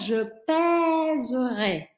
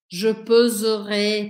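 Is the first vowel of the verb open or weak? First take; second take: open; weak. First: The first vowel of the verb is open. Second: The first vowel of the verb is weak. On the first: The speaker calls it right. "il va prendre un accent grave" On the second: The speaker calls it wrong. "c'est difficile de prononcer comme ça"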